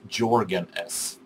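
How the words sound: The name is said with an American pronunciation. "Americans or other English-spoken people also says JörgenS"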